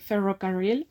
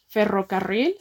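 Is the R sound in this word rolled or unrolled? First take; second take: unrolled; rolled. First: The R sounds are soft and not rolled. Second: The R sounds are strongly rolled. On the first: This is how everyone in the hometown speaks. "aber ich sage Ferrocarril, aber das ist nicht falsch, sondern das ist mein R" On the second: This is the standard pronunciation. "richtig ist Ferrocarril zu sagen"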